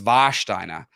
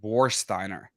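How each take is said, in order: First: The name begins with a V sound. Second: The name begins with an English W sound. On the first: This is how it is said in Germany. The speaker calls it right. "but it's Warsteiner" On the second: This is how Americans say it. The speaker calls it wrong. "Americans pronounce it Warsteiner"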